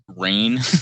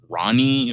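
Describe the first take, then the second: First: The name sounds like the word rain. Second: The name sounds like two syllables, Ronnie. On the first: The speaker calls it right. "how I realized how to pronounce rain" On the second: The speaker calls it wrong. "I was always thinking like Ronnie"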